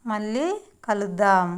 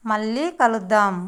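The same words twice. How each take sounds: The two takes are said the same way.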